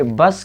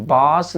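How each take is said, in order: First: बस with a quick short a; short vowel. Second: बास with a long drawn-out aa; stretched vowel. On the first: Teacher shows students the correct reading, बस said with short vowel. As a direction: keep the vowel in बस brief. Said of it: "बस की बा को जल्दी पढ़ेंगे". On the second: Teacher shows students the wrong reading, बास with vowel dragged. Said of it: "इसको हम बास नहीं पढ़ेंगे". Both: Shown as a demonstration.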